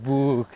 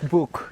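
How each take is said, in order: First: The vowel sounds like the vowel in moon. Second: The vowel differs from the vowel in moon. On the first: The speaker calls it wrong. "They're like book, like moon" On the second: The speaker calls it right. "it's book, it's not like moon"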